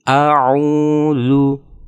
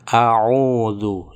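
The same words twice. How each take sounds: First: The final vowel is a clear rounded u. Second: The final vowel drifts toward an o sound. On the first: The speaker calls it right. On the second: The speaker calls it wrong.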